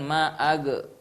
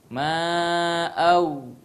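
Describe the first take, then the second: First: The final consonant ends with a bouncing release. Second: The final consonant ends without a bouncing release. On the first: The speaker calls it wrong. "berarti kita qalqalah huruf ghain" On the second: The speaker calls it right. "bukan ma'ag"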